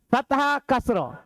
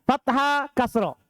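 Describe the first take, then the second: Both takes have the same delivery.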